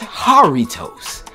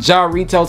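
First: The word begins with an H sound. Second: The word begins with a J sound. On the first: The speaker calls it right. "it's a H in the place of the J" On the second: The speaker calls it wrong. "Your boy was calling them Jarritos because"

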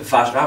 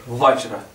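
First: The word begins with a soft V sound. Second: The word begins with a W sound. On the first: "au lieu de dire Vajra" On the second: "il y en a d'autres qui mettent W"

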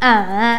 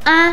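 First: The pitch dips low and then rises. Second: The syllable is short and light, without contour. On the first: "เสียงที่3" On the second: "เราจะออกเสียงสั้นๆหรือว่ากึ่งเสียง"

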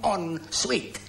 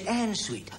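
First: The first word sounds like French 'en'. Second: The first word sounds like English 'and'. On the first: The speaker calls it right. "The correct way to say it is bathroom en suite" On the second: The speaker calls it wrong. "You said en suite"

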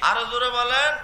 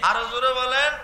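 Both takes have the same delivery.

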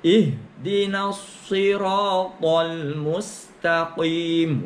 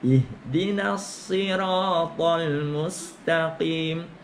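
First: The phrase is said heavily and forcefully. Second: The phrase is said lightly and naturally. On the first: The speaker calls it wrong. "Sampai kuat gitu" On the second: The speaker calls it right. "Dianya ringan"

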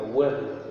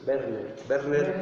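First: The name begins with a rounded W sound. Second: The name begins with a lip-teeth V sound. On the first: "En inglés sería Werner" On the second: "como es en alemán, es Werner"

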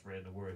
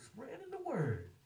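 First: It is said in a flat, plain tone. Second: It is said in a joyful, warm tone. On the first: The phrase is said without real feeling. "It wasn't just" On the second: The speaker understands and delights in the phrase. "he said it with like a joy and an understanding"

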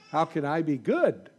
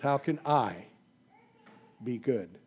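First: It sounds curious, asking what goodness means. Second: It sounds hopeless, like doubting it is possible.

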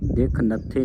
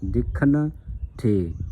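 First: The break falls after 'dekh', joining 'nathe'. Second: The break falls after 'dekhan', leaving 'the' separate. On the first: The speaker calls it wrong. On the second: The speaker calls it right.

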